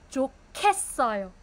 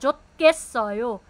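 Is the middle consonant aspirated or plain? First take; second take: aspirated; plain. First: The middle consonant is strongly aspirated. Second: The middle consonant is plain and unaspirated. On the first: The speaker calls it right. "Aspirated na siya" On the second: The speaker calls it wrong. "hindi siya 좋겠어요"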